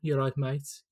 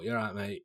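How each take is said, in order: First: It is said in a Birmingham accent. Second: It is said in a Manchester accent.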